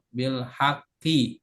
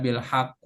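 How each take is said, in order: First: The word ends with an i vowel. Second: The word ends with a u vowel. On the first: The speaker calls it right. "kalau majrur tanda jernya al kasroh bil haqqi ya" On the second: The speaker calls it wrong. "Gak boleh dibaca"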